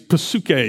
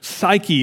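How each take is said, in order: First: The word begins with an audible P sound. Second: The word begins without any P sound. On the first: "It sounds very different in Greek when you pronounce it with the P" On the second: "in English, we use this word all the time, but we leave the P silent"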